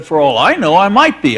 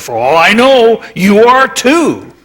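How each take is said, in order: First: Said in the usual way. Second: Rexroth's teasing jab. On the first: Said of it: "I could have said". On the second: Retold or imitated. Rexroth quoted teasing him.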